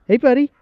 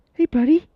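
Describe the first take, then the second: First: Said in the usual way. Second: Squeaky, much higher and louder hello to the dog; high excited dog greeting. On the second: Real, not acted. Greeting the family dog, high and loud. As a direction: pitch it way up like greeting a puppy.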